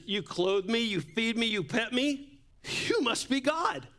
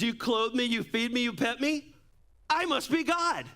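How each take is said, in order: First: Rising higher with each line, excited; eager dog voice. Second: High and lofty, climbing to a haughty "I must be God"; smug cat voice. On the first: Pastor voicing the dog to his church, higher and awed. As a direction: build up to a high, awed "you must be God". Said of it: "The dog says". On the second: Pastor voicing the cat to his church, high and haughty. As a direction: play the cat full of itself. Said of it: "And the cat says". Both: Retold or imitated.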